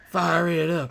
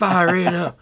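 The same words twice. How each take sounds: First: High catchphrase repeated softer; quieter catchphrase. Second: High, loud laughing catchphrase; character catchphrase. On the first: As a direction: echo the villain line, calmer. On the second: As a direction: shout it like a cartoon villain. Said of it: "light it up torch". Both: Retold or imitated.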